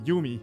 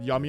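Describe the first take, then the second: First: The name is said with Japanese-style vowels. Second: The name sounds like the English word yummy. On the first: The speaker calls it right. "It would probably be more correct to say Yumi" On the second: The speaker calls it wrong. "I'm pronouncing it Yummy on purpose because there's two M's"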